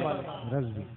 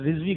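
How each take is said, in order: First: The first vowel is an 'a' sound. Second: The first vowel is an 'i' sound. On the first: The speaker calls it right. "जबर वाले रजवी" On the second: The speaker calls it wrong. "थोड़ी गलती कर दी उसने, रिजवी कर दिया है। हम जेर वाले नहीं है"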